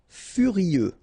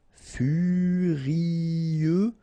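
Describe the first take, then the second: First: Said in the usual way. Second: "furieux" stretched in one long, higher line; drawn out. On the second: Shown as a demonstration. French teacher modelling for learners, "furieux" long and drawn out. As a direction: hold each vowel of "furieux".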